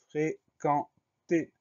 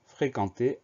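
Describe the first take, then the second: First: FRÉQUENTER very slow, split into fré, quen, ter; dictation-style "fréquenter", each syllable drawn apart. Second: Said in the usual way. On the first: Shown as a demonstration. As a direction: say "fréquenter" in three separated, higher-pitched syllables. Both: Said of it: "Première syllabe".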